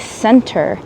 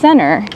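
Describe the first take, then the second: First: It is said slowly, with every sound clear. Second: It is said quickly, with sounds reduced. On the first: "if I was speaking on my slow English vlog" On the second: "I said that because I was speaking quickly"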